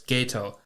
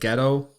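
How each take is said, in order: First: The first syllable rhymes with gate. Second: The first syllable rhymes with get. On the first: The speaker calls it right. "but it's Gato" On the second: The speaker calls it wrong.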